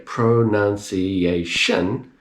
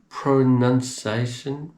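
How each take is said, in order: First: The word is pronounced clearly and distinctly. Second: The word is pronounced indistinctly and hard to catch. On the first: The speaker calls it right. "If you can hear pronunciation" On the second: The speaker calls it wrong. "I can't quite hear it"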